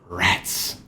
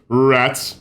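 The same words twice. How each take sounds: First: The word is said with a dark, menacing tone. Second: The word is said plainly, without menace. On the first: The speaker calls it right. "It has to have that kind of sinister, uh, sinister vibe to it" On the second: The speaker calls it wrong. "That would sound weird, right?"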